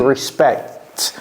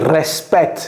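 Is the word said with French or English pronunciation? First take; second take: English; French. First: It has an English-style pronunciation. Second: It has a French-style pronunciation. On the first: The speaker calls it right. "j'ai dit respect" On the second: The speaker calls it wrong. "j'ai pas dit respect"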